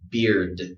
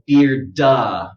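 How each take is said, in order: First: The final d ends cleanly with no vowel. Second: The final d is followed by an extra vowel. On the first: The speaker calls it right. "Just give it d d" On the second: The speaker calls it wrong. "don't overdo it. Don't go beard-da"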